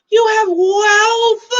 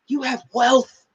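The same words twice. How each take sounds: First: "wealth" stretched out high and loud; very slow, loud, high stress on "wealth"; hammered emphasis. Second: Slow stress on "wealth"; emphatic distinction. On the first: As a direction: draw "wealth" out hugely, pitched high. Repeats punchline far bigger. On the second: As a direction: set "wealth" apart, slowly, rising at the end. First take of a repeated punchline. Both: Real, not acted.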